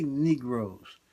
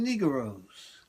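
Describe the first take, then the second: First: Said in the usual way. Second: Put-on Southern drawl on "Negroes"; southern accent. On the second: Shown as a demonstration. Comic imitating Southerners saying "Negroes", Southern accent. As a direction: stretch "Negroes" into three syllables, Southern-style. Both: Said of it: "they have their southern accent".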